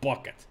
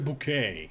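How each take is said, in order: First: It sounds like bucket, stress on the first syllable. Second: It sounds like boo-kay, stress on the last syllable. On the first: The speaker calls it right. "He has always been Bucket" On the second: The speaker calls it wrong. "Never Bouquet. He's not that fancy"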